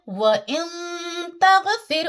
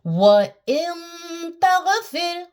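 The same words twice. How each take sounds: First: "व इन तगफिर" spoken quickly without the long held nasal; quick recitation. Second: "व इन तगफिर" slow and higher, with the "इन" nasal held and the t crisp; correct ikhfa recitation. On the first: Teacher repeating the example quickly to students. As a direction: say it through fast. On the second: Teacher giving students the correct recitation of the example. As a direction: hold the nasal, then snap into "तगफिर". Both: Shown as a demonstration. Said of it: "तुरंत उसको सटा देंगे".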